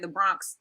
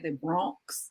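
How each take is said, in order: First: It is said with a New York accent. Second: It is said with a California accent.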